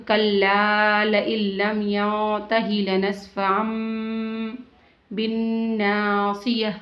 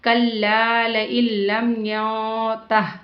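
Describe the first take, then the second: First: यंतहि flowing straight into लनस्फअम without a stop; joined recitation through यंतहि; joining the verses. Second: Kalla लइल्लम यंतह with a full stop after यंतह; recited with a halt on यंतह; stopping at the verse end. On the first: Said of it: "अगर मिलाकर पढ़ेंगे तो". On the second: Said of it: "इस तरीके से". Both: Shown as a demonstration.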